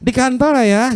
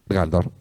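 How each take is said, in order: First: It is said with lively, expressive melody. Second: It is said flatly, with no melody. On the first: The reply sounds warm and engaged. The speaker calls it right. "laki-laki suka kalau ada intonasinya" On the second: The reply sounds cold and uninterested. The speaker calls it wrong. "Ternyata laki-laki itu nggak suka begitu"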